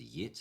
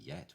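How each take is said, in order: First: The vowel is raised toward an 'ih' sound. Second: The vowel is an open 'eh' sound. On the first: This belongs to an Australian accent. "Go to Australia for yit" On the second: This is the speaker's own base accent. "I say yet"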